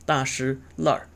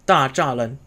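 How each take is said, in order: First: The middle syllable is shi, ending in an r. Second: The middle syllable is zha, with plain lan ending. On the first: This is the local Beijing dialect form. "Beijing dialect has a sign of weakening the middle syllable" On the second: This is the standard reading of the characters. "which is how we would normally pronounce it"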